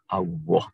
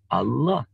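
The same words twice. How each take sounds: First: The middle consonant sounds like a W. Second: The middle consonant is a clear L. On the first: The speaker calls it wrong. "lebih suka menggunakan huruf wawu atau w" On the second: The speaker calls it right. "bukan lam"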